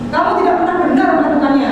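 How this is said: The voice is firm and stern.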